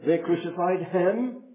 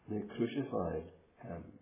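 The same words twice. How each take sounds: First: The stress falls on the word him. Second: The stress falls on the word crucified. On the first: The one killed was the sinless Son of God. "you put the emphasis on the last word" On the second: The manner of death was crucifixion, not mere killing. "you think of that word in the middle"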